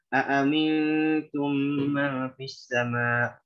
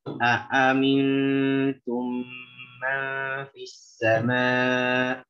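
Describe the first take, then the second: First: It is recited quickly. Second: It is recited slowly and very deliberately. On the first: "Kalau baca dengan hadr" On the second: "Baca dengan tahqiq"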